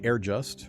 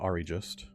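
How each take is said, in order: First: The first part sounds like 'air'. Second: The first part sounds like 'ari'. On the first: The speaker calls it wrong. "I always want to say Air Just" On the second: The speaker calls it right. "reflips that I and that R back to Ari Just"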